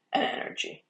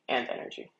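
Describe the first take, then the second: First: Voice crack. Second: Said in the usual way. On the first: Real, not acted. Weather forecaster explaining that cape is energy, voice cracking. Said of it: "that was a horrible voice crack". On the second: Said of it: "Oh, that was a horrible voice crack".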